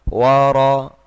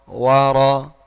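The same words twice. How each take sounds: No difference in how they are said.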